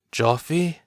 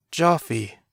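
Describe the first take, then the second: First: Joffy? rising, an unbelieving question, raised pitch; stunned, rising Joffy?. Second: Joffy. falling, a certain, choked statement, raised pitch; broken, falling Joffy; recognising. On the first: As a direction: ask Joffy? as if not sure it's him. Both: A narrator's reading. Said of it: "Andor could barely speak".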